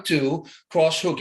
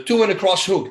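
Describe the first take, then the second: First: "two, cross hook" slowed right down, each beat spaced apart; slow counted punch rhythm. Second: Said in the usual way. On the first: Shown as a demonstration. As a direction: count the combo out beat by beat like a coach. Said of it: "In my mind, as soon as I throw it". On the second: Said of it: "everything is rhythms".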